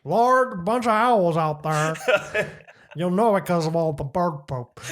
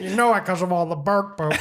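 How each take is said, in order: First: Slow, drawn-out neighbor voice with a laugh; neighbor impersonation. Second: Laughing imitation of the neighbor; imitating the neighbor while still laughing. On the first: Retold or imitated. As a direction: drag the words out like him. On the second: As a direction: mimic him through laughter. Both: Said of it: "That's how he sounds".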